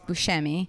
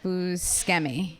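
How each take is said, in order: First: The name is pronounced in an Italian way. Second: The name is pronounced in an American way. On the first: This is how the name is said in Italian. "the Italian way to say it is Buscemi" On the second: This is how the bearer says his own name. "he pronounces it Buscemi"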